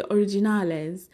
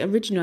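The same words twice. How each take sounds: First: Improvised mock Spanish accent. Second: Said in the usual way. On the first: Shown as a demonstration. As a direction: make the English word sound Spanish. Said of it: "that's probably not how it's said". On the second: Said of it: "I'll just be saying different words".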